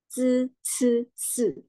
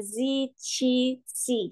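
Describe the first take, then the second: First: "Z, C. C." as dzeu, tseu, seu; correct Mandarin sounds. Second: "Z, C, C" read as zee, chee, see; wrong ee readings. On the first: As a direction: swap the ee for a buzzed uh-like vowel. ("Z, C. C." dibaca "dzeu, tseu, seu") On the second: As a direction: give each one a clear ee, the mistaken way. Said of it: "jadi jangan baca Z". ("Z, C, C" dibaca "zi, ci, si", cara yang salah) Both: Shown as a demonstration.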